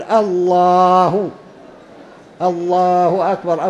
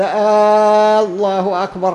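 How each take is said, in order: First: الله أكبر with no added آه, الله drawn out very slowly; proper muezzin pronunciation of الله أكبر; correct adhan call. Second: آه الله أكبر with a long added آه before الله, slow; wrong drawn-out call. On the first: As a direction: sing الله long and clean, then أكبر. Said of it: "لا بد أن يقول". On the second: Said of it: "خطأ، لا يمد". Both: Shown as a demonstration.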